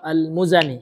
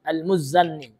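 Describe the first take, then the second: First: The n sound is short, single. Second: The n sound is held long, doubled. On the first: The speaker calls it right. "yang benar ... tidak ditasydidkan huruf nunnya" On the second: The speaker calls it wrong. "ditasydidkannya ... ini salah"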